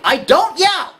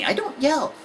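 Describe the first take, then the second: First: Louder, high exasperated parent shout; comic yell. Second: Higher-pitched protesting parent; defensive denial. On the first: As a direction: yell the denial, defeating yourself. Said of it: "Okay, except for this time". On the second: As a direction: deny it, still holding back. Parent's first denial, acted. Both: Acted.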